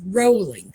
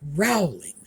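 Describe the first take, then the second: First: The first syllable rhymes with go. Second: The first syllable rhymes with cow. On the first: The speaker calls it right. "It rhymes with bowling, not growling" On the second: The speaker calls it wrong. "or as they said"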